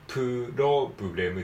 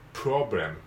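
First: A vowel is inserted between the P and R. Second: The P and R are joined without a vowel. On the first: The speaker calls it wrong. "間に母音を挟まないようにプロブレムではなくて" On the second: The speaker calls it right. "プロブレムですからね"

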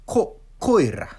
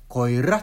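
First: The stress falls on the first syllable. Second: The stress falls on a later syllable. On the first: The speaker calls it right. "単語の一番最初のところがアクセントになる" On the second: The speaker calls it wrong. "コエラとかないんですよ"

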